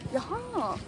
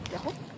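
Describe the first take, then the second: First: It sounds like calm, understanding acknowledgement. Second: It sounds let down and disappointed. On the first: The speaker now understands something. "if you want to say, oh, I understand" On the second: The speaker is disappointed in something. "if you want to say like you're disappointed in something"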